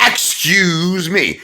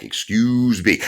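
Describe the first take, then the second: First: Slow, much higher "Excuse me" stretched out; drawn-out polite excuse me. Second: Said in the usual way. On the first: Shown as a demonstration. Protester squeezing past on the sidewalk, drawn out. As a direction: sing it sweetly to pass by. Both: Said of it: "here's the right way to do it".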